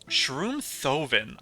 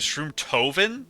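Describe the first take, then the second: First: The h after the t is pronounced. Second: The h after the t is silent.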